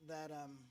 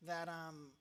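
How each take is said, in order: Both takes have the same delivery.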